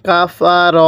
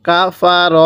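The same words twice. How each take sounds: No difference in how they are said.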